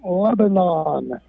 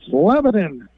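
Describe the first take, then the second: First: It is said like the Middle East country. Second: It is said the local Pennsylvania way. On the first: It names the country in the Middle East. The speaker calls it wrong. "not Lebanon" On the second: It names the college's home town. The speaker calls it right. "It's Lebanon"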